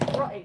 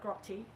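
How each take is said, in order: First: The middle T sound is dropped. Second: The middle T sound is clearly pronounced. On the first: The speaker calls it right. "you don't pronounce the T" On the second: The speaker calls it wrong. "not grotty"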